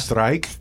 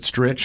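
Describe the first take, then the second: First: It has a long 'eye' vowel and ends in 'k'. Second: It has a short 'i' vowel and ends in 'ch'. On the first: This is how outsiders read the name. "And they go strike" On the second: This is how the family says the name. "we always pronounced it Stritch"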